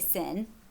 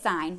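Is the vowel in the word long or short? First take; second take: short; long. First: The vowel is short, rhyming with 'pin'. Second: The vowel is long, rhyming with 'line'. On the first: The speaker calls it wrong. "We don't say sin" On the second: The speaker calls it right. "we still say it sign"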